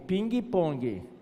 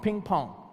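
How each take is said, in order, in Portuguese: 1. É dito com sotaque brasileiro. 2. É dito com sotaque americano. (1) "A modalidade esportiva brasileira é ping-pong" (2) "O americano é ping-pong"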